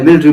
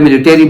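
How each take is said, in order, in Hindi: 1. यह शब्द ब्रिटिश लहजे में बोला गया है। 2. यह शब्द अमेरिकन लहजे में बोला गया है। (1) "यूनाइटेड किंगडम वाले मिलिट्री बोल रहे हैं" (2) "यूएस वाले मिलिट्री बोल रहे हैं"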